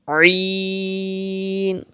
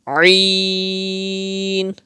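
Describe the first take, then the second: The two takes are said the same way.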